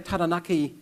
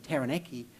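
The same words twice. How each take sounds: First: It is said with Māori vowels and sounds. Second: It is said with English vowels and sounds. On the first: The speaker uses the proper form with a Māori elder. "to Sir Toby Curtis" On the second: The speaker switches to the anglicized form for a Pākehā crowd. "at the uh, Rotary Club"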